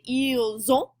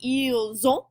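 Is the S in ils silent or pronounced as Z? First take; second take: Z; Z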